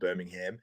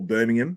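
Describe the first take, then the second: First: It is pronounced the American way. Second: It is pronounced the British way. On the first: The speaker calls it wrong. "not Birmingham" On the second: The speaker calls it right. "as I've been told by the U K people"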